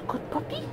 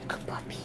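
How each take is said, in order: First: Very high squeaky "Good puppy"; squeaky praise. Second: Whispered praise. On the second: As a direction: breathe the praise. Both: Real, not acted.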